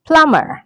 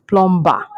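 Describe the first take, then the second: First: "plumber" as PLUM-er, high then falling; silent B. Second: "plumber" as plom-ba, b sounded; wrong pronunciation. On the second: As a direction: put a b in the middle of "plumber". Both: Shown as a demonstration. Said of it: "not plumber".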